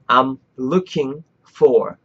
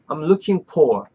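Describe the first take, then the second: First: The f in 'for' is a soft airy hiss. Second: The f in 'for' comes out as a pop. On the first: The speaker calls it right. "절대 입술 안 닿죠?" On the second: The speaker calls it wrong. "발음이 딱 터지는 발음이 나죠? 요 발음 나면 틀린 거야"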